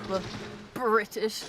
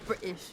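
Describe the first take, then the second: First: The T in the middle is clearly pronounced. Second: The T in the middle is dropped. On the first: The speaker calls it wrong. "you you said it incorrectly" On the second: The speaker calls it right. "There we go"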